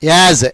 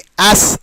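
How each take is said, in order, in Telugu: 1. ఈ పదం ఝుమ్మనే z శబ్దంతో ముగుస్తుంది. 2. ఈ పదం హిస్ s శబ్దంతో ముగుస్తుంది. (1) "జ్ జ్ యాజ్ అనాలి" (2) "యాస్ స్ కాదు"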